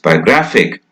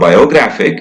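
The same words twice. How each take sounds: First: The unstressed vowel is reduced to a weak schwa. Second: The unstressed vowel is said as a full vowel. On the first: The speaker calls it right. "It becomes a weak schwa sound because the stress is not there" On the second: The speaker calls it wrong. "It's not biographic"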